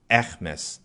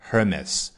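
First: The word starts without any H sound. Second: The word starts with an audible H sound. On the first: "那这里把H 那个音给省掉，那爱马仕就是Hermes" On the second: "英国人美国人有的时候就Hermes"

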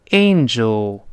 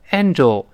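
First: The first vowel is a diphthong before the nasal. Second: The first vowel is a single plain vowel. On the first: The speaker calls it right. "要读成angel" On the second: The speaker calls it wrong. "不能读成angel"

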